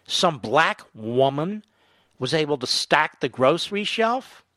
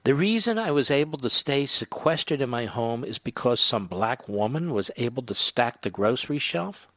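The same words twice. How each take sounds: First: Slow sarcastic echo of the quote; slow mocking repeat. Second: Quietly quoting him in disbelief; incredulous reread quote. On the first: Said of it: "Who thinks like this?". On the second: Retold or imitated. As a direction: repeat the quote, disbelieving and flat. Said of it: "Who talks like this?".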